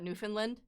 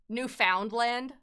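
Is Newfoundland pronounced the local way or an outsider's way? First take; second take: local; outsider. First: Newfoundland is pronounced the way locals say it. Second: Newfoundland is pronounced the way outsiders say it. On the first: The speaker says it this way. The speaker calls it right. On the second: Other people say it this way. The speaker calls it wrong. "That's probably how they say it"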